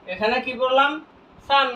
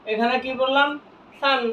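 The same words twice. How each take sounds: The two takes are said the same way.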